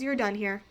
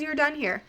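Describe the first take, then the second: First: Softer, calm and even, like a quiet knowing voice inside; calm inner voice. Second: Said in the usual way. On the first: Retold or imitated. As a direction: let the words settle gently, softer than the telling. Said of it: "the most calm voice". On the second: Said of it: "It just says".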